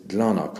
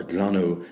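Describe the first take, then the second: First: Glanach closed with a k sound; glanach, the variant with a final consonant; consonant ending. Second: Glanu ending on a vowel; glanu, the variant without a final consonant; open "oo" ending. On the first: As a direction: say glanach as "glan-ok". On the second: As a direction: say glanu as "glan-oo". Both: Shown as a demonstration. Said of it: "However you pronounce it".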